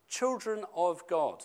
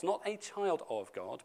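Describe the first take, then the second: First: Put-on "children" stressed, said slowly. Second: "Not" stressed with a rise, softer. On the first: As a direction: lean on "children" with a falling tune. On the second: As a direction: lift "Not", rising, quieter. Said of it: "but children of God". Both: Shown as a demonstration.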